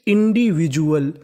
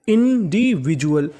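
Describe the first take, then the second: Both takes have the same delivery.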